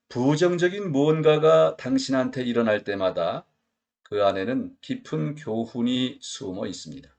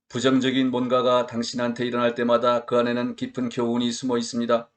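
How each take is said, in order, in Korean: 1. 생동감 있게 읽었습니다. 장단음이 살아 있습니다. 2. 밋밋하게 읽었습니다. 장단음이 없습니다.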